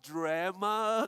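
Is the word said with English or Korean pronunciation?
English. The opening consonant cluster is said without extra vowel. "da palavra inglesa drama"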